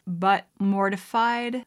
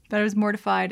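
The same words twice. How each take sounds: First: "mortified" drawn out with odd weight; weird emphasis. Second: Said in the usual way. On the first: Real, not acted. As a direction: lean slowly and oddly on "mortified".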